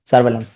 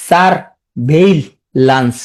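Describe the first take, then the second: First: Said in the usual way. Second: "সারভেইলেন্স" in three slow, separate pieces; syllable-by-syllable. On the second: Shown as a demonstration. Teacher fixing a common misspelling, slow and broken up. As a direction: pause between "সার", "ভেই" and "lens". Teacher breaks word for spelling.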